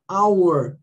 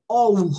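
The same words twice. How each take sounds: First: "our" said as English "AU-er"; English pronunciation. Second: "our" read with Portuguese letter sounds, as "o-ur"; spelled-out pronunciation. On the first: Teacher giving students the correct sound, English pronunciation. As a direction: open "our" with an "ow" glide. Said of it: "Por isso aqui não é". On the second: Teacher showing students the wrong reading, mispronounced. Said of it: "não é our". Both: Shown as a demonstration.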